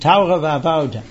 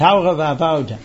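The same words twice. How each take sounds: First: It is said in a German-Jewish pronunciation. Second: The same.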